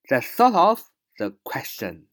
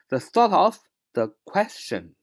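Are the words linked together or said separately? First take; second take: linked; linked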